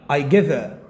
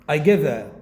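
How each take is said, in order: Both takes have the same delivery.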